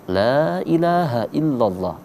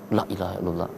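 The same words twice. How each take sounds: First: The first vowel is held long. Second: The first vowel is rushed and short. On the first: There is no god but God. The speaker calls it right. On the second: Truly there is a god other than God. The speaker calls it wrong.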